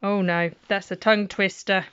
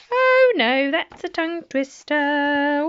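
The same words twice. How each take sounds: First: Said in the usual way. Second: Much higher, louder hammed-up "Oh no"; mock dismay. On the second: Shown as a demonstration. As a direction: overplay the panic for the kids. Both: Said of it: "repeats it exaggerated".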